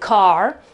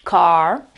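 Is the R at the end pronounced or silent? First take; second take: pronounced; pronounced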